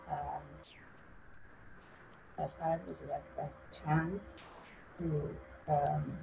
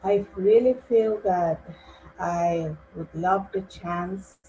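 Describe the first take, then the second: First: Very soft, trailing away; hushed, hesitant start that fades; too quiet to hear. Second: Speaking up. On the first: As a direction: speak barely audibly, with halting pauses. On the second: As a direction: speak up so they can hear you. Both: Real, not acted. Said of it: "can you speak up?".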